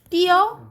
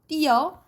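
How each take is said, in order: First: The last vowel is a plain 'eo' sound. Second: The last vowel gets a 'y' glide, 'yeo'. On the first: This is the standard rule pronunciation. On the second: This is how it is actually often pronounced.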